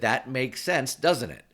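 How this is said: The tag is said like a flat statement. The speaker assumes agreement rather than asking for it. The speaker calls it right. "I didn't make it a question"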